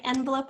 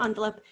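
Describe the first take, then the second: First: Quick envelope starting with short E. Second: Quick envelope starting with AHN. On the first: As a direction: say envelope with EN up front. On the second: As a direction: say envelope with ON up front. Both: Shown as a demonstration. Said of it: "either way".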